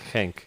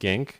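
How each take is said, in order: First: The name is pronounced in a Dutch way. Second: The name is pronounced in an English way. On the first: This is how it is said locally. The speaker calls it right. "it's Genk ... Dutch sort of pronunciation" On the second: This is how most people say it. The speaker calls it wrong. "people keep saying Genk"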